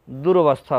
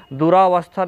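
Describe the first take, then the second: First: दुर्वस्था with "dur" joined straight to "vas"; correct form durvastha. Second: दुरावस्था with a long "raa" in the middle; wrong form duraavastha. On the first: Teacher giving students the correct form, "dur-vas-tha". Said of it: "दुर्वस्था होता है". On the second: Teacher showing students the wrong form, long "raa". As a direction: say दुरावस्था as "du-raa-vas-tha". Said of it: "दुरावस्था नहीं". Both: Shown as a demonstration.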